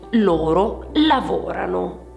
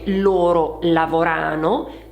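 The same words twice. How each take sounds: First: The stress falls on the root of lavorano. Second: The stress falls on the ending of lavorano. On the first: The speaker calls it right. "bensì ... l'accento che passa dalla desinenza alla radice" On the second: The speaker calls it wrong. "non si dice"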